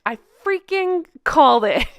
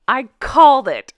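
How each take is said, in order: First: Freaking pushed up high; I told you so, freaking stressed. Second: Said in the usual way. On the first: Real, not acted. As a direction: lean into freaking, gleeful.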